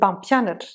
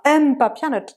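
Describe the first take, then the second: First: The M blends softly straight into the P. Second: The M is sounded as its own separate syllable. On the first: The speaker calls it right. "c'est pampianat" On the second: The speaker calls it wrong. "C'est pas M papianat"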